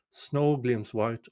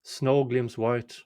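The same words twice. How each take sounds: The two takes are said the same way.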